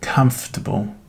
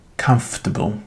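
The two takes are said the same way.

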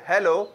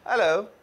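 First: The h at the start is pronounced. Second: The h at the start is silent. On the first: "ना के" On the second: "British जो है एच को silent करते हैं"

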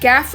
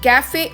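First: The word ends on the f sound. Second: A vowel is sounded after the final f. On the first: The speaker calls it right. "இந்த வார்த்தையை நம்ம கேஃப் அப்படின்னு தான் சொல்லணும்" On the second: The speaker calls it wrong. "கேஃபே அப்படின்னு சொல்லுவோமா"

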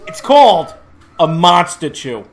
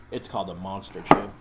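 First: It is said with more energy. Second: It is said with little energy. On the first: The speaker calls it right. "was that one any better?" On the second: The speaker calls it wrong. "I should have put more in, like, put more into that"

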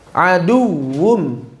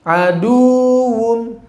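First: The doubled w is pressed with short stress. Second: The vowel before the w is drawn out long. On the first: The speaker calls it right. "juga terjadi di waw bertasydid" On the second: The speaker calls it wrong. "bukan dipanjangkan menjadi aduwwum"

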